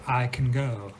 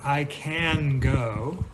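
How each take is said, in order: First: The vowel in can is weak and reduced. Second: The vowel in can is a full a. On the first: The speaker calls it right. "you would say" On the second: The speaker calls it wrong. "instead of"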